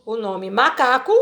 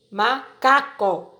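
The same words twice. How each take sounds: First: Said in the usual way. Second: "macaco" drawn out slowly, ma-ca-co; slow syllable by syllable. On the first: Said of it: "Aqui eu tenho o macaco". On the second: Shown as a demonstration. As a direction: stretch "macaco" out slowly, each syllable apart.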